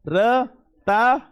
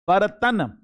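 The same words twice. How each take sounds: First: बरता stretched very slowly, rising at the end; syllable-by-syllable demo. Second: Said in the usual way. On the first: Shown as a demonstration. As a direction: drag out बरता, ba-ra-ta. (बरता को बहुत धीरे, ऊपर उठाते हुए) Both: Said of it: "देख लो बर्तन ऐसे होता".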